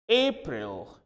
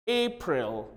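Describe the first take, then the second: No difference in how they are said.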